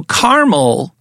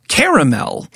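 First: Caramel pronounced "CAR-mul", slowly; two-syllable caramel. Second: Caramel pronounced "CARE-uh-mel"; three-syllable caramel. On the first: Host explains the difference, caramel as CAR-mul. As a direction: say caramel without the middle vowel, CAR-mul. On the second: Host explains the difference, caramel as CARE-uh-mel. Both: Shown as a demonstration. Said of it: "the difference between caramel and caramel".

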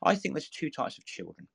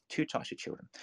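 First: Said in the usual way. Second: Hushed whispered repeat; soft secretive whisper of the same words. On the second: Shown as a demonstration. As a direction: drop to a whisper for effect. Repeats phrase, second take whispered.

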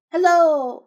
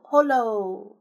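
First: Loud, high drawn-out hail; big ringing hello; calling out. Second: "Holo" with an O in the first syllable; "Holo", not starting with an E sound; corrected pronunciation. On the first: Acted. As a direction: call out loudly, stretching the word. Repeats the character's cried hello. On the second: Shown as a demonstration. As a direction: say "Holo" drawn out, opening on HO. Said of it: "It's holo, not hello".

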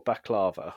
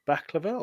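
First: Baklava with a long stressed LAH in the middle; baklava, middle vowel stretched and stressed; stress on middle syllable. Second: Baklava with BAK stressed, middle syllable reduced; baklava, front-stressed with a short middle vowel; stress on first syllable. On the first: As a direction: say baklava as bak-LAH-vuh. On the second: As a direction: say baklava as BAK-luh-vuh. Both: Shown as a demonstration. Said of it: "Emphasis on the va there".

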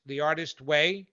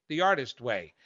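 First: The Artist Way said with a rising, unsure tune; "Way" lifts up as if checking the title; questioning rise. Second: The Artist Way said with a falling, certain tune; "Artist" stressed, and the tune drops at the end; settled fall. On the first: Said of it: "um, uh, The Artist". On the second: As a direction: land "The Artist Way" firmly, as if it is confirmed. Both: Real, not acted.

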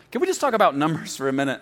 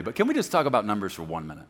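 First: Fast, louder, we stressed. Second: Said in the usual way. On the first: Shown as a demonstration. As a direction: hit the word we quickly. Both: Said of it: "I'm way over time already".

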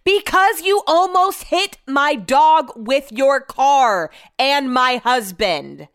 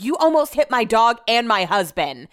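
First: Slow, high, emphatic shouting; retold furious yell, stretched out; super-loud yell. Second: Raised, louder protest; moderately heated comeback, acted out; retold angry retort. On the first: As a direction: yell each word back at the driver. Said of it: "yell super loud". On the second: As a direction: re-enact snapping back at a driver. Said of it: "You need to lower your voice".

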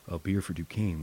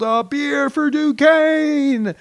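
First: Said in the usual way. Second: Long, high drawn-out shout; joyful slow shout from the air; yelled. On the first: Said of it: "I was about to yell". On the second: Retold or imitated. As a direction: yell it across the sky as the chute opens. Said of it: "I yelled".

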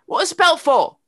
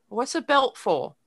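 First: Loud, high mock yell in a British child's accent; raised, high-pitched imitation of a child screaming; imitated screaming. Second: Lightly imitated little girl's British accent; mock British accent, asking a question; thick British accent. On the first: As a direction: yell it like an insistent little British girl. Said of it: "she's sort of screaming it at me". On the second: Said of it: "She had a very thick accent".

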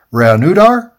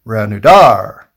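First: REANUDAR loud, rising high at the end as a question; testing the emphasis. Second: REANUDAR slow and loud, falling at the end; trying the emphasis. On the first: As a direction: try out "Reanudar" with a questioning upswing on DAR. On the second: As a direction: declare "Reanudar" firmly, drawing out the final DAR. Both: Shown as a demonstration. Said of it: "where you put the emphasis".

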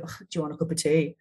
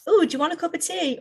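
First: Reluctant offer. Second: High, chirpy tea offer; much higher, lilting friendly question; bright offer. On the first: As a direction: sigh it out as if it's a chore. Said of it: "Or you can go". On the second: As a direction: sing it out eagerly, pitched well up. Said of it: "the phrase differently, right? You can say". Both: Shown as a demonstration.

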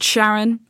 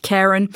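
First: Sharon begun with a soft "sh" sound; soft SH pronunciation. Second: Charon begun with a hard "k" sound; hard K pronunciation. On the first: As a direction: say Sharon with SH, as in "shall". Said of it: "sometimes pronounced Sharon". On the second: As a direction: say Charon with K, not SH. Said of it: "sometimes pronounced". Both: Shown as a demonstration.

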